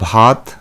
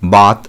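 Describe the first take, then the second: First: The first consonant has a breathy aspiration. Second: The first consonant has no aspiration.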